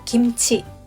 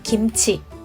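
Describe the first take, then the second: No difference in how they are said.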